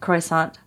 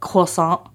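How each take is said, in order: First: It is pronounced with an ordinary anglicized pronunciation. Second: It is pronounced with a French-style pronunciation. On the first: The speaker sounds ordinary. "Instead of croissant at Starbucks in Iowa" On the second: The speaker sounds snobbish. "saying it with an appropriate pronunciation makes me feel kind of like a snob"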